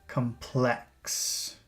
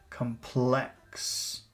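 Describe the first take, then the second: Both takes have the same delivery.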